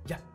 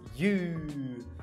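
First: The vowel is reduced to a schwa. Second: The vowel is a full long 'oo'. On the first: "ele reduz a palavra you para um schwa" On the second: "ele fala da forma mais convencional"

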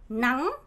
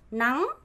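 First: The pitch rises upward. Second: The pitch rises upward.

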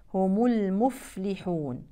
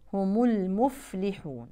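The two takes are said the same way.

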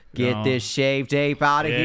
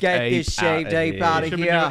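First: It is said in an English accent. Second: It is said in an Australian accent. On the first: The speaker calls it right. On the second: The speaker calls it wrong.

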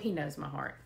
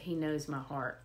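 First: It is said in a casual, dismissive tone. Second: It is said in a worried, alarmed tone. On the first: Being known is an excuse to do anything. The speaker calls it wrong. "We should never say that dismissively" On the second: Being known is a reason to change. The speaker calls it right. "It should always be said"

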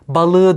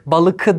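First: The middle consonant is a soft g sound. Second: The middle consonant is a hard k sound. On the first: The speaker calls it right. "balığı diyoruz" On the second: The speaker calls it wrong. "balıkı değil"

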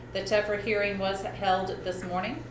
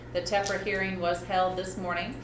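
No difference in how they are said.

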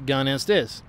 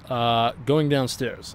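First: An Australian accent with a different inflection. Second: An American accent with a falling inflection. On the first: "And in Australia, we go" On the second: "The inflection goes down, and for example"

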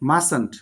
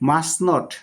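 First: The words are contracted into one word. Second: Both words are said in full. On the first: "মাস্ট নট হলো মাসেন্ট" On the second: "মাস্ট নট হলো মাসেন্ট"

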